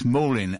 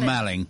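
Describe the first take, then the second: First: The first vowel sounds like the one in 'all'. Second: The first vowel sounds like the one in 'pal'. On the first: The speaker calls it right. "it's Morling, and Maul as in all" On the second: The speaker calls it wrong. "Not Malling"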